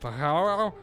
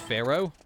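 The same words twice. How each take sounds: First: The word is sounded out literally, as spelled. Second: The word is said with its usual pronunciation.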